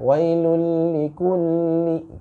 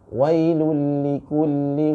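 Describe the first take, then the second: First: The L sound is held for too long. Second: The L sound is held at a short, natural length. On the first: The speaker calls it wrong. "terlalu lama itu ya" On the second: The speaker calls it right. "jangan terlalu cepat juga jangan terlalu lambat"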